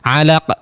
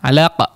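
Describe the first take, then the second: Both takes have the same delivery.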